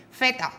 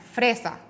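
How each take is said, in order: First: "feta" said in place of fresa, dropping the r and the s; child's error. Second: Said in the usual way. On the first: Retold or imitated. Therapist imitating a child saying "feta" for fresa. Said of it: "te dice feta". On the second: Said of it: "muy pocos dicen fresa".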